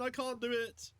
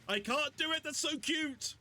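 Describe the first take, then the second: First: Said in the usual way. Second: Squeal. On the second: Real, not acted. Cooing over cute characters.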